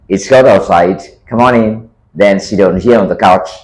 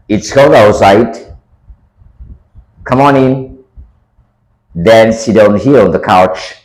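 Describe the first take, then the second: First: It is spoken at a faster, more natural pace. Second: It is spoken at a slower, dictation pace.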